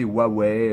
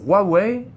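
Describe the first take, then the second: First: It is pronounced the French way. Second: It is pronounced the Chinese way. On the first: This is how people in France say it. "que en France vous vouliez euh, prononcer" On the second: This matches the brand's origin. "c'est euh, la prononciation en chinois"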